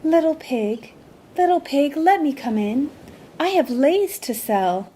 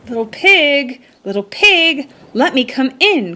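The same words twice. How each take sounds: First: Higher, sweet disguised seller voice; sweet calling. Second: A hungry shark calling out, higher and urgent; anxious shark calling. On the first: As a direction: call sweetly, pretending to be a lei seller. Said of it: "called sweetly". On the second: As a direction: call anxiously up to the door, higher. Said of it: "called the hot and hungry magic shark anxiously". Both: A narrator's reading.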